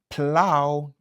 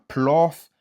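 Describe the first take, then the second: First: The word ends with an ow sound. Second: The word ends with an f sound. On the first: The speaker calls it right. "c'est ow" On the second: The speaker calls it wrong. "Ni c'est pas pla, plof ou bien bof"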